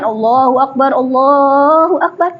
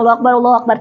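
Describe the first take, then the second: First: It is said slowly and drawn out. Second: It is said quickly.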